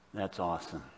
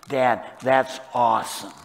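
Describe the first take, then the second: First: Soft, lowered voice of wonder; hushed awe. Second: Lightly voiced teen, punching the praise louder; hint of an impressed kid, loud emphasis; impressed teenager. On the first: Acted. Psalmist marvelling to Heavenly Father, hushed awe. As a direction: drop it low and reverent. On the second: Father mimicking his teenage kids, lightly voiced loud approval. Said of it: "When they were teenagers, they would say".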